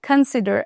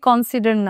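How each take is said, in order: First: The first syllable has a reduced 'uh' vowel. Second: The first syllable has a full 'o' vowel. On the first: The speaker calls it right. "এটার উচ্চারণ হচ্ছে consider" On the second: The speaker calls it wrong. "consider না, উচ্চারণ কিন্তু কন না"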